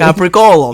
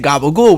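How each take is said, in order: First: The word is said in full, with crisp consonants. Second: The word is clipped, with softened consonants. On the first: The speaker calls it right. "That's how you say it" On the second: The speaker calls it wrong. "When we hear somebody say gabagool, we're like, what the fuck are you saying?"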